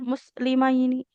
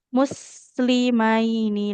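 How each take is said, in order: First: The word is rushed and the s is clipped. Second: The word is unhurried and the s flows longer. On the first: The speaker calls it wrong. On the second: The speaker calls it right.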